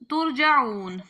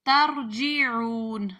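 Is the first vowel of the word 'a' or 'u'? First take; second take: u; a. First: The first vowel is u, then ja. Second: The first vowel is a, then ji. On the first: "आगे है तुरजाउ, तुरजाऊन" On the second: "ता पे जबर, और जीम के नीचे जेर"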